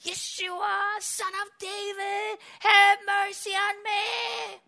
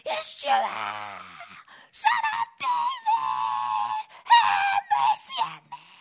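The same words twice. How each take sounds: First: A raised, drawn-out plea, higher and slow; a first, held-back cry for mercy. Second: Full-throated shout, much higher and very slow; a blind beggar screaming over the crowd for mercy; desperate scream. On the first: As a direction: call out for mercy, stretching each word. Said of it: "He starts to scream on top of his lungs". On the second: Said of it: "you would have to scream, scream, scream, cry out". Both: Retold or imitated.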